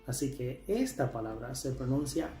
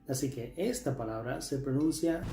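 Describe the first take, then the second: No difference in how they are said.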